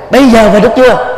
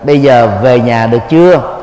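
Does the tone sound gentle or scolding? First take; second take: scolding; gentle. First: It is said harshly, like a scolding. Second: It is said softly and gently.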